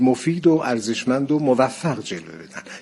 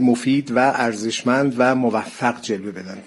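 First: Each 'and' is a short 'o' linked to words. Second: Each 'and' is a separate, full 'va' sound. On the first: The speech sounds smoother and softer. The speaker calls it right. "چقدر کلامتون نرمتر میشد" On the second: The speech sounds choppy and hammered. The speaker calls it wrong. "چککشی شد"

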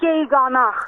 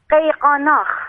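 First: The word begins with a g sound. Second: The word begins with a deep q sound. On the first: "به اصطلاح آذری ها بهش میگن" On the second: "بله با قاف شروع"

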